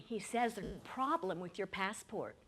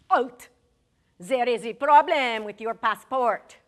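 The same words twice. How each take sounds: First: Said in the usual way. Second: Put-on loud French-accented halt; stern French official. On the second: French passport officer stopping Larry, loud French-accented order. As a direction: bark it like a border guard.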